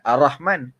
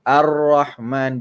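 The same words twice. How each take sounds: First: The r sound is short and single. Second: The r sound is held and doubled. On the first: The speaker calls it wrong. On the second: The speaker calls it right. "tasydid dia kena jaga"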